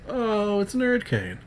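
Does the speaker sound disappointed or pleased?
pleased. The phrase sounds glad and warmly pleased. The person is happy to see them. The speaker calls it right. "Just say"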